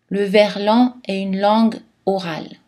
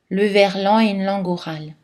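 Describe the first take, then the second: First: A short pause separates 'langue' and 'orale'. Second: 'Langue' runs smoothly into 'orale' without pause. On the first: "On peut faire une petite pause entre langue et oral pour souligner l'importance de cette information" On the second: "Ou on peut aussi appliquer l'enchaînement"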